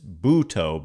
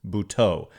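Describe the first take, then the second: First: The stress is on the first syllable. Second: The stress is on the last syllable. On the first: The speaker calls it wrong. "they said it's Buto" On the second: The speaker calls it right. "but it's Buteau"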